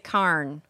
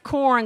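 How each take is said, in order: First: The vowel is said as in 'ar'. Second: The vowel is said as in 'or'.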